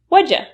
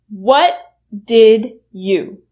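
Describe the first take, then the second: First: The words are shortened and run together. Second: Each word is said fully and separately. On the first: "will reduce to what'd ya" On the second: "What did you will reduce to what'd ya"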